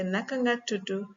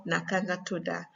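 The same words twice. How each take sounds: First: Senegalese Wolof, "tudu" closing on "oo"; Senegalese accent. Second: Gambian Wolof, "tuda" closing on "ah"; Gambian accent. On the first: Teacher offering learners the first option, Senegalese accent. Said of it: "one is Senegalese accent". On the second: Teacher offering learners the second option, Gambian accent. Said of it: "the other is Gambian accent". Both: Shown as a demonstration.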